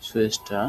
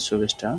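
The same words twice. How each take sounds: First: "সুয়েস্টা" as shwesta, with a w glide; palatal sh. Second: "সুবেস্টা" as shu-besta, with a b; b variant. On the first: Teacher offering first variant, "সুয়েস্টা" with a w glide. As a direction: begin "সুয়েস্টা" with sh gliding into we. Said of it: "তালব্য স এর মতো". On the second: Teacher offering second variant, "সুবেস্টা" with a clear b. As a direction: say "সুবেস্টা" with b in the middle. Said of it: "বা সুবেস্টা". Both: Shown as a demonstration.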